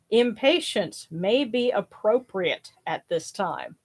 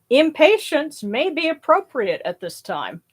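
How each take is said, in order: First: It is read slowly and distinctly. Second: It is read at an ordinary pace.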